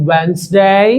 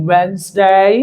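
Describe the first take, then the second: The two takes are said the same way.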